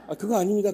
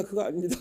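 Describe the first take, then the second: First: Quoted hurried denial, a bit higher and louder; mock-flustered, waving it off; lightly voiced startled junior. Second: The denial again, settling back toward the normal voice with a small rise; lightly voiced denial trailing up; repeated denial. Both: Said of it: "그러시더라고요".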